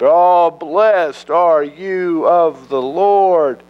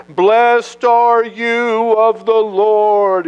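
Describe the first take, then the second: First: High, slow, gushing flattery; buttering up. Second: High, slow, fawning flattery; butter up the prophet. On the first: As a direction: lay the flattery on thick. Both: Acted. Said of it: "really trying to butter the prophet up".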